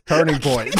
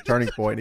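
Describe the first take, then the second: First: A hint of a raised Nash impression; mock Kevin Nash. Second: Said in the usual way. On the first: Podcast host retells Nash's catchphrase, mock shout. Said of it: "He goes". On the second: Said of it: "Kevin Nash goes".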